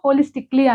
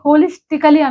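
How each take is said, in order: First: 'Holistic' runs straight into '-ly' without a vowel. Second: An extra vowel follows 'holistic' before '-ly'. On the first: The speaker calls it right. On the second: The speaker calls it wrong. "హోలిస్టికలీ అనకూడదు"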